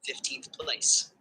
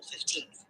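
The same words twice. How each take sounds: First: Slow "fifteenth place", stressed on FIF; stress on first syllable. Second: Put-on "fifteenth" softly, stressed on TEENTH; stress on second syllable. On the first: Tutor showing the student the shift, "fifteenth place" stressed on FIF. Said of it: "the stress shifts to the first syllable". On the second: Tutor showing the student the word alone, "fifteenth" stressed on TEENTH. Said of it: "the stress naturally falls on the second syllable". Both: Shown as a demonstration.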